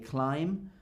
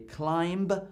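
First: No extra consonant sound is pronounced at the end. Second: An extra consonant sound is pronounced at the end. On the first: The speaker calls it right. "I say climb" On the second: The speaker calls it wrong. "I don't say climb"

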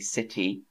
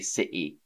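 First: The T in the middle is clearly pronounced. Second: The T in the middle is dropped. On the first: The speaker calls it right. "so I'd probably still say the T. The same way that I say city" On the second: The speaker calls it wrong. "I don't say city"

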